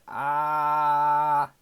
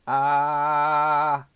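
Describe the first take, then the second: The two takes are said the same way.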